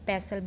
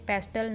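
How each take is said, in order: First: No t sound is pronounced in the middle. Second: A t sound is pronounced in the middle. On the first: The speaker calls it right. "टी silent है इसलिए ... पेसल बोलते हैं" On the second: The speaker calls it wrong. "पेस्टल नहीं"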